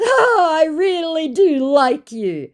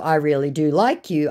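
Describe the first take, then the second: First: High, slow, drawn-out Oh; mock the scammer's oily charm; a sappy, hammed-up scammer crooning the line. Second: Said in the usual way. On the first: Scammer's flirty reply read aloud.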